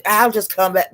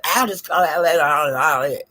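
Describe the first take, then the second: First: Said in the usual way. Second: Mocking Ness. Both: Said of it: "she brought it".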